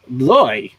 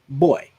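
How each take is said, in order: First: It starts with a v-like sound, lips kept apart. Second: It starts with a normal b, closing the lips. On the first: "if you go with a V, if you say boy, but with your mouth closed" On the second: "you couldn't say boy without moving your lips"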